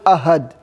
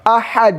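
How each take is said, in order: First: The middle h is a plain, light h. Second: The middle h is deep, from the throat. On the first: The speaker calls it wrong. "not ahad. If you say ahad, there is no meaning" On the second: The speaker calls it right. "with ha"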